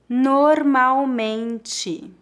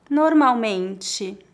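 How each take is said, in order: First: It is spoken slowly and carefully. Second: It is spoken at a natural pace. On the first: "Uma vez mais devagar" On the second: "2 vezes mais naturalmente"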